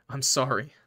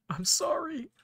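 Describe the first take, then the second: First: Said in the usual way. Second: Very high, cracking apology; anguished apology. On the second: Acted. Player apologizing to Button before the kill, very high and anguished. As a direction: let it break upward in grief.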